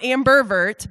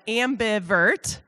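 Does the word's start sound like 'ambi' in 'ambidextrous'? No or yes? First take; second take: no; yes. First: The start does not sound like 'ambidextrous'. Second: The start sounds like 'ambi' in 'ambidextrous'. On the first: The speaker calls it wrong. "Not ambivert" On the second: The speaker calls it right. "but ambivert. Like ambidextrous"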